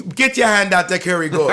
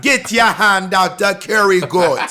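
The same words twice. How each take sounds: First: Imitating West Indian accent. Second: Louder, slow hammed-up West Indian accent; caricature West Indian accent. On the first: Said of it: "this is me, like, repeating how you said it". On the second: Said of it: "now that's a caricature".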